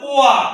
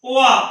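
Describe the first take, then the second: No difference in how they are said.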